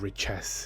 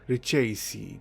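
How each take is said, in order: First: The name ends like the word chess. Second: The name is said with an Italian-sounding ending. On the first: "It reminds me of a game of chess" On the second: "make the name sound Italian"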